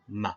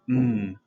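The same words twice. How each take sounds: First: The m sound ends with an added uh vowel. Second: The m sound is said alone, with no vowel. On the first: The speaker calls it wrong. "not m" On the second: The speaker calls it right. "we would say the phoneme m as m"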